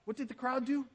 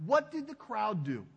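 First: Asked again, pitch lifted higher; repeated question to the congregation, pitched up; rhetorical question, higher. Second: Said in the usual way. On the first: Shown as a demonstration. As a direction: press the congregation for the answer.

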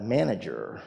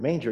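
First: "manager" said in place of manger; "manager", the typo read out as spelt; mistyped word. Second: Said in the usual way. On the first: Shown as a demonstration. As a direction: say "manager" with three syllables, MAN-a-jer. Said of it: "it comes out manager". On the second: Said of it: "every time I type the word".

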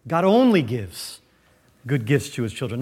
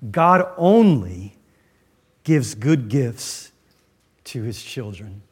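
First: Said in the usual way. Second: Slow, weighty statement, stress on "only"; slow emphatic. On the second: Shown as a demonstration. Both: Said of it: "Here's the second truth I want you to see".

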